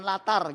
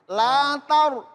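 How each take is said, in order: First: The syllable is light, with a thin open vowel. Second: The syllable is heavy, with a thick rounded vowel. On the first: The speaker calls it wrong. "Jangan jangan jangan latar gitu ya" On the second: The speaker calls it right. "dibaca tafhim"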